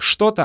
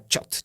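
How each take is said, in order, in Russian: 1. Слово произносится в полной форме. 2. Слово произносится в сокращённой форме. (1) "Не что-то" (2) "а чет"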